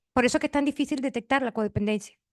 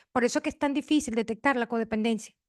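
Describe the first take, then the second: No difference in how they are said.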